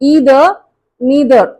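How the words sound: The words begin with an 'ee' vowel. "American pronunciation"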